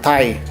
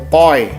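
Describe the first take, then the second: First: The vowel sounds like 'tie'. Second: The vowel sounds like 'toy'. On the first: The speaker calls it wrong. "dibacanya bukan tai" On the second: The speaker calls it right. "tapi toy ya"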